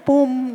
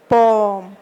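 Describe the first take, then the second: First: The vowel sounds like oo. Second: The vowel is a long o. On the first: The speaker calls it wrong. "la gente lo pronuncia como, tiene la tentación de leerlo desde el inglés" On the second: The speaker calls it right. "es una O larga"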